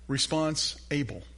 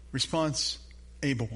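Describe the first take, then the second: First: Said in the usual way. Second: Response with a rise, a pause, then able with a fall; split into two words. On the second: Shown as a demonstration. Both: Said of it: "think of the word responsible".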